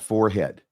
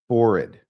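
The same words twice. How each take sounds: First: It is said 'fore-head', with a full second syllable. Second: It is said 'forrid', rhyming with horrid. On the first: The speaker calls it wrong. "not forehead" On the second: The speaker calls it right. "like rhymes with horrid"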